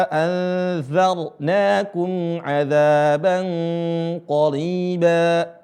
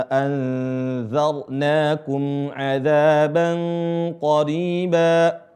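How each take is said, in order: Both takes have the same delivery.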